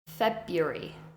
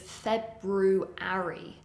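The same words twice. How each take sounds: First: A middle syllable is reduced. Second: Every syllable is fully pronounced as spelled. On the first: "but the pronunciation" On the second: "The spelling is February"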